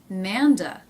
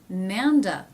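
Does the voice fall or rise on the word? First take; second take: fall; fall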